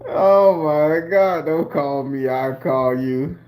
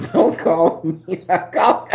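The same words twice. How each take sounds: First: Said in the usual way. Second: Slow, laughing while quoting her; laughing through it. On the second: Real, not acted. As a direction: break into laughter on the words. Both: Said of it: "the laugh got some tears in it".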